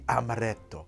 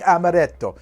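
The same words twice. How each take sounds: First: The word is said with a plain American pronunciation. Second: The word is said with an exaggerated Italian pronunciation.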